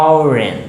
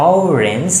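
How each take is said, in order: Both takes have the same delivery.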